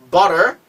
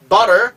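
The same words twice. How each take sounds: The two takes are said the same way.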